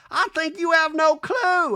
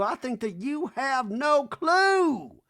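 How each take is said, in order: First: High, loud, slow [name] put-down; mock [name], high and cutting; hammed-up [name], stretching clue; [name] impression. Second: High, loud and very slow; drawled high [name] put-down; mock [name], dragging out clue; [name] impression. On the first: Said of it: "I heard [name] go". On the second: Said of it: "[name] goes".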